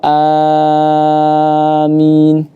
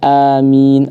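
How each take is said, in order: First: The first vowel is held for six counts. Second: The first vowel is held for two counts. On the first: "A-nya a-nya enam" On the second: "a-nya dua harakat"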